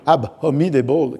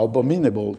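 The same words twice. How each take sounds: First: Every written letter of the word is sounded. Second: The word is said in the ordinary way. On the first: This is the pedant's pronunciation. "qui est la prononciation du pédant" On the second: This is the usual pronunciation of ordinary English speakers. "qui serait sans doute la prononciation non seulement de Don Adriano Armado, mais peut-être des Anglais"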